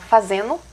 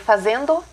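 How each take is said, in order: First: The d is dropped, ending sounds like 'eno'. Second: The ending is said fully with a d sound. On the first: "a gente fala fazendo aqui" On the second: "Seria fazendo"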